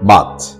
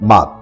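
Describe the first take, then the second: First: The final consonant has a strong puff of air. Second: The final consonant has no puff of air. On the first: The speaker calls it right. "আমরা বলবো মাছ" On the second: The speaker calls it wrong. "আমরা বলবো না মাছ"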